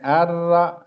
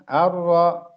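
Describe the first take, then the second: First: The r is pronounced thin and light. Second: The r is pronounced thick and heavy. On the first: The speaker calls it wrong. "artinya bukan tebal tapi tipis ya, dibacanya tipis" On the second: The speaker calls it right. "Yang sungguhnya ditebalkan"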